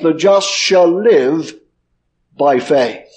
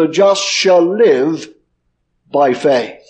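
First: The stress is on the word faith. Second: The stress is on the word faith.

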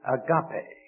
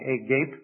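First: It is pronounced differently from the English spelling. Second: It is read like the English spelling suggests. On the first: The speaker calls it right. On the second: The speaker calls it wrong.

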